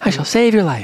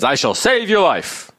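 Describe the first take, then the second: First: The voice is small and calm. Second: The voice is big and forceful. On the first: The speaker calls it right. "We have probably a smaller voice. ... And kind of calm. That was good" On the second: The speaker calls it wrong. "she probably didn't say it with such a"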